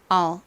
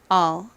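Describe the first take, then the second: No difference in how they are said.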